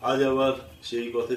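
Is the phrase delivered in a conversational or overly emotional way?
conversational. It is said plainly, like everyday conversation. It sounds like greeting someone met after a long time. The speaker calls it right.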